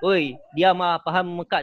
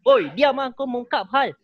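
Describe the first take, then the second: First: Said in the usual way. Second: Higher and louder yell to shut them up; heated battle-rap shout; angry shout. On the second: Shown as a demonstration. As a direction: snap at the noisy crowd. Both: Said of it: "Kan beza kan".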